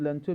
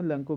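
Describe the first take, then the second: First: The middle consonant is a 'ch' sound. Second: The middle consonant is a 'k' sound. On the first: "तो हम लंचो भी कह सकते हैं" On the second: "वहाँ C H O से को पढ़ा जाता है"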